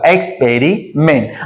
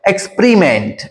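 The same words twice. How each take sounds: First: The second syllable is said with a full 'peh' vowel. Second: The second syllable is said with a reduced 'puh' vowel. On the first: "पेरीच्या ऐवजी" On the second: "परी असा उच्चार होतो"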